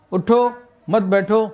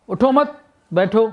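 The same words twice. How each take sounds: First: اٹھو on its own, then مت بیٹھو as one group; pause after اٹھو. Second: اٹھو مت joined, high and rising, then بیٹھو apart; higher-pitched اٹھو مت, break before بیٹھو; pause after مت. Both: Shown as a demonstration. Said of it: "کہاں ہم نے رکے اور کہاں نہ رکے".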